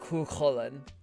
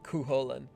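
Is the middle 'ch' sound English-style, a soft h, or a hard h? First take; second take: hard h; English-style. First: The middle 'ch' is a harder, harsher h sound. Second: The middle 'ch' is said English-style, not breathy. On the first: The speaker calls it right. "if you want to get super Irish, it's Cuchulainn. So it's even like a harder huh noise" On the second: The speaker calls it wrong. "it does p- piss me off though whenever they pronounce it Cuchulainn. It's not how you pronounce the C H noise"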